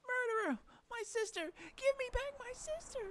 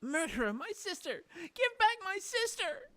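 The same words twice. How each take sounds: First: Very high, shrill demand; tearful scream. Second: High, loud, tearful demand; grief-stricken scream. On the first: Grieving girl screams at Faye again, tearful shout. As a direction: scream for her sister back. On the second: Grieving girl screams at Faye, furious and tearful. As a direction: scream for her lost sister. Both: Acted.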